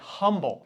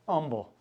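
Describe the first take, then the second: First: The word starts with an audible h sound. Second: The word starts with no h sound. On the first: This is how people from Chicago say it. "when you're from Chicago, you say humble" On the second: This is how locals say it. "So no H's down here"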